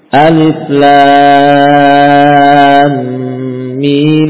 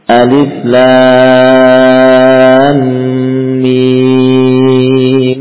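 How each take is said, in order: First: The vowel of the final mim is held short. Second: The vowel of the final mim is held long. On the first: "Atau dibaca dengan 2 harokat ya" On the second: "kita baca dengan 6 harokat mimnya"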